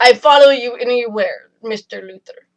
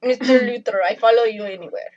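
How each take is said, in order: First: Put-on light Russian accent, devoted; a hint of a Russian accent, loyal. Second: Put-on quick Russian accent, devoted; a Russian villainess accent. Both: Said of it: "That's a pretty good Russian accent".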